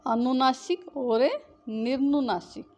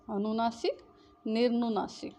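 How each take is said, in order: First: Says each term slowly and clearly for students; drawn-out, careful teacher pronunciation; slow dictation. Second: Said in the usual way. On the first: Shown as a demonstration. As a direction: spell the words out slowly by voice. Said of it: "अनुनासिक और निर्नुनासिक (teacher says the terms, then repeats them)". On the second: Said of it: "अनुनासिक, निर्नुनासिक (quick repeat of the same terms)".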